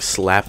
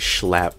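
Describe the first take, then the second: First: The word begins with a plain s sound. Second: The word begins with a sh sound. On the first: "instead of saying slap" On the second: "I would say schlap"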